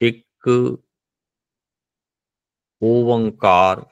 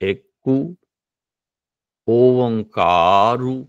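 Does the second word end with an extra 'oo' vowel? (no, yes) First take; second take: no; yes. First: The second word ends in a consonant. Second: The second word ends with an 'oo' vowel. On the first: This is today's everyday Punjabi pronunciation. "ये मेरा Punjabi उचारण" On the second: This is how it was pronounced in the Gurus' era. "गुरु काल विच रहेगा"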